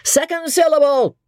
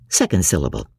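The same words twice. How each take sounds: First: High ringing call of Second syllable; high stage cry; cried announcement. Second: Said in the usual way. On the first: Acted. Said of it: "a voice cries out".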